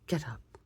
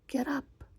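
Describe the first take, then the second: First: It is said in an ordinary, unshrill voice. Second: It is said in a shrill, loud voice. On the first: The speaker calls it wrong. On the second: The speaker calls it right.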